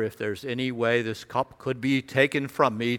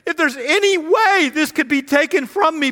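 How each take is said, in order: First: It is recited in a detached, formal tone. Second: It is said in a pleading, anguished tone.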